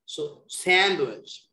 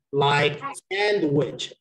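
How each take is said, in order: First: Slow sandwich with SAND stressed. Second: Slow, weight on SAND in sandwich; stress on SAND. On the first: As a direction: sandwich again, slowly, SAND hit hard. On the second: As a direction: stretch sandwich, leaning on SAND. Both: Shown as a demonstration. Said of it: "the proper pronunciation".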